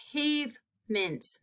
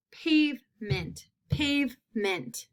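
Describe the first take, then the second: First: Softer, slow "Pavement" stretching the A; slow model word. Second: "pavement" said slowly, leaning on the long A; slow model word. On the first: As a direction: repeat it gently for the class. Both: Shown as a demonstration. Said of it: "That long A sound".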